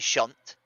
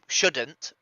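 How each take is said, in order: First: The word is squeezed into a single syllable. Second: The word is said in full with two syllables. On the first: This is how people from the speaker's region say it. "We say shunt" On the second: This is the standard form. "we don't say shouldn't"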